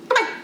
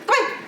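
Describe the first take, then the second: The two takes are said the same way.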